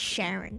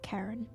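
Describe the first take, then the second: First: The name begins with an sh sound. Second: The name begins with a k sound. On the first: This is how the speaker first assumed it went. "I first thought it was like Sharon" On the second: This is how others apparently say it. "apparently they pronounce it Karen"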